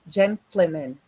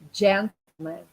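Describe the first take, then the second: First: An extra vowel follows the t, like 'gently'. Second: The t runs straight into l, like 'gentle'. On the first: The speaker calls it wrong. "people tend to say gentlemen, gentlemen, because of the interference" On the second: The speaker calls it right. "gentle, it's not gently"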